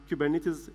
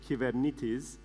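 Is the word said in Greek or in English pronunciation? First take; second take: English; Greek. First: It is pronounced the American English way. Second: It is pronounced the Greek way. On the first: The speaker calls it wrong. "people in the US, they tend to mispronounce things" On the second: The speaker calls it right. "The right way of saying Kubernetes in Greek is"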